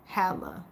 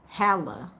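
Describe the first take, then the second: First: The first vowel sounds like 'ah'. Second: The same.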